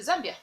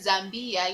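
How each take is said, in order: First: The ending is short and clipped. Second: The ending is dragged out and lengthened. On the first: The speaker calls it right. "just say Zambia" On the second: The speaker calls it wrong. "you don't drag the mbia at the end"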